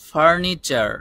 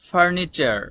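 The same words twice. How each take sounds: The two takes are said the same way.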